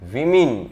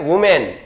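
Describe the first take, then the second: First: The first vowel sounds like 'i'. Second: The first vowel sounds like 'oo'. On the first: The speaker calls it right. "શું કહેવાય? વિમેન" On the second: The speaker calls it wrong. "બહુવચનમાં વુમેન નો કહેવાય"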